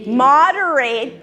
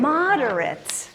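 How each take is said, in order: First: "Moderate" said slowly MOD-er-ate; full long A at the end of "Moderate"; "Moderate" as the verb, last syllable like "eight"; moderate ending in "rate". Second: "Moderate" said slowly and softer, MOD-er-it; weak short last vowel in "Moderate"; "Moderate" as the adjective, ending reduced to "rit". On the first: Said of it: "pronounce it differently". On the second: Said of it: "pronounce it differently for average in amount". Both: Shown as a demonstration.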